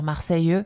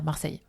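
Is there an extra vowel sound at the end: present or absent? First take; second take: present; absent. First: Southern accent, with the final e sounded. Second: Standard accent, with the final e dropped. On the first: This is how people from the south say it. "les gens de Marseille, donc du sud de la France, vont prononcer euh, le e puisqu'ils ont un accent du sud" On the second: This is how most other French speakers say it. "alors que nous on va dire Marseille"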